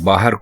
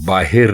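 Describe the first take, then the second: First: The second vowel is an 'a' sound. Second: The second vowel is an 'i' sound. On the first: The speaker calls it right. "बाहर को बाहिर नहीं कह सकते" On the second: The speaker calls it wrong. "बाहिर नहीं कह सकते"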